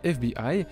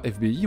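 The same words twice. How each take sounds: First: The letters are spelled out the English way. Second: The letters are spelled out the French way. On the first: "c'est-à-dire à l'anglaise, on dit FBI" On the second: "on dit pas FBI"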